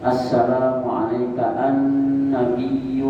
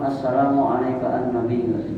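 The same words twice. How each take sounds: First: The doubled consonants are held long. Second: The doubled consonants are cut short. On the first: The speaker calls it right. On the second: The speaker calls it wrong.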